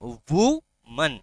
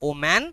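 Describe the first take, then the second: First: It starts with 'oo' and ends in 'man'. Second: It starts with 'oh' and ends in 'man'. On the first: The speaker calls it right. "It's উমান" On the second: The speaker calls it wrong. "Not ওম্যান"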